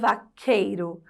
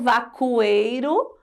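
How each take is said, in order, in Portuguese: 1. Um som de k simples, sem u. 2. Um som de u, parecido com w, segue o k. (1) "o Q com U produz apenas um som" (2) "Eu falo vacueiro"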